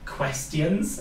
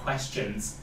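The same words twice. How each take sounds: First: It is said with a Welsh accent. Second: It is said with a standard accent.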